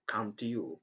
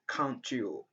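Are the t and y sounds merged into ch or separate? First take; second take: separate; merged. First: The t and y are said as separate sounds. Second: The t and y merge into a ch sound. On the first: The speaker calls it wrong. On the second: The speaker calls it right.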